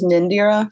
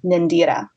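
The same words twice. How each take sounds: First: The name is said the plain English way. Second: The name is said with an Elvish pronunciation. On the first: "it's just Nindira" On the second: "like an elfish is Nindira"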